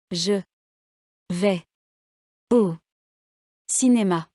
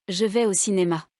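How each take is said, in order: First: Je, vais, au, cinéma each said alone with long pauses; word by word. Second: Je vais au cinéma run together, falling at the end; one phonetic word. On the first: Teacher showing written words one at a time, word by word. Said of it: "Faites attention à l'accent tonique". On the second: Teacher showing students a phonetic word, Je vais au cinéma in one breath. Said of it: "contiennent un seul mot prononcé". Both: Shown as a demonstration.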